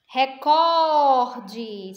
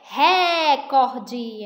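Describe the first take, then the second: First: The stress is on the second syllable. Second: The stress is on the first syllable. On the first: The speaker calls it right. "A sílaba cor" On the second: The speaker calls it wrong. "Se tivesse o acento no é, ... então seria o ré"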